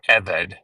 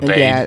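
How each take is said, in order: First: The stress is on the first syllable. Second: The stress is on the second syllable. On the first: The speaker calls it right. "you always put the accent on the first syllable, not the second" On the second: The speaker calls it wrong. "When people say abade"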